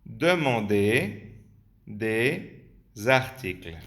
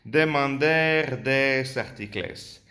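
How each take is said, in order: First: Demander with a silent r, slow and careful; correct French reading. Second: Demander with a sounded r, articles with a hard final s; Spanish-style misreading. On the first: The teacher repeats the right pronunciation. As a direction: model the French again slowly. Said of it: "Vamos a volver a verlo". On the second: The teacher imitates how a Spanish brain reads the French. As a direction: read the French as if it were Spanish. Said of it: "vuestro cerebro se está leyendo así". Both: Shown as a demonstration.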